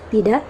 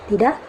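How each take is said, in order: The two takes are said the same way.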